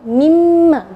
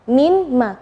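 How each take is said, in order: First: The n merges into a doubled m. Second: The n is heard before the m. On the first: "ketika digabung mimma, jadi nunnya tidak kelihatan" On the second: "Kalau asalnya min ma ya"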